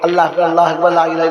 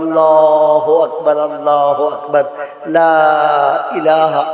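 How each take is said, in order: First: The phrases are rushed together without pauses. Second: The phrases are separated by clear pauses. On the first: The speaker calls it wrong. "সেই সবিনা খতমের মতো পড়ে দিই" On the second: The speaker calls it right. "থেমে থেমে বলা উত্তম"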